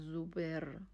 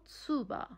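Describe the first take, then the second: First: The word ends with a clear er sound. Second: The word ends with an open ah sound. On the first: The speaker calls it wrong. "نمیگه زوبر. ای آر نداریم" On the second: The speaker calls it right. "ای آر آخر کلمه اومد، آ تلفظش میکنین"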